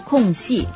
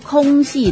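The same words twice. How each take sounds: First: The first syllable has a falling tone. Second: The first syllable has a high level tone. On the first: The speaker calls it right. "而是要读空隙。很多情况下空都是要读第四声，声调要降下来的" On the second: The speaker calls it wrong. "空隙并不是读空隙的"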